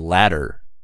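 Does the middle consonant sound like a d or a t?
d. The middle consonant sounds like a soft d. "in American English we say ladder"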